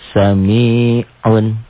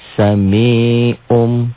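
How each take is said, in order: First: The word ends with a plain n sound. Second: The word ends with an m sound.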